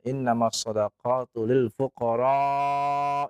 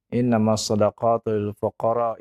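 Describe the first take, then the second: First: The vowel in fuqara is held long. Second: The vowel in fuqara is held short. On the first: The speaker calls it right. "dan dipanjangkan lil fuqara" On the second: The speaker calls it wrong. "Kemudian di, di stop ya"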